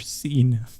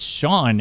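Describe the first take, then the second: First: The name sounds like 'seen'. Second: The name sounds like 'shawn'. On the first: "when visually seeing it" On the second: "It's Sean, isn't it?"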